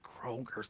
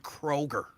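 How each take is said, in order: First: The name ends with an added s sound. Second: The name ends without any s sound. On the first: The speaker calls it wrong. "It's not Kroger's" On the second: The speaker calls it right. "There's no S on Kroger"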